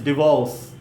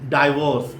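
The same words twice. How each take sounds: First: It is said with an American English pronunciation. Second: It is said with an Indian English pronunciation. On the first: The speaker calls it right. "it is divorce" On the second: The speaker calls it wrong. "it is not divorce"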